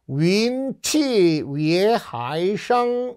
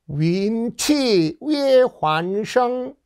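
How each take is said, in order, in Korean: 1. 네 번째 음절은 hai로 발음해요. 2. 네 번째 음절은 huan으로 발음해요. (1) "여기서는 하이라고 읽어야 되는데" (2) "아 환이 아닙니다"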